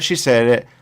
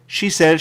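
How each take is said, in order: First: "she" gets the stress. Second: "said" stressed with a falling tune. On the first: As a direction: start strong on "she". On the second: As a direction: hit "said", let it fall. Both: Shown as a demonstration. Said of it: "repeats with shifting stress".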